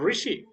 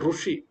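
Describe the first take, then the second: First: The first syllable is pronounced ri. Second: The first syllable is pronounced ru. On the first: This is the proper Sanskrit pronunciation. "ना रू होगा ना रा होगा, और री होगा" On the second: This is how it is said in a regional habit. "जो री है उसको रू बोला जाता है"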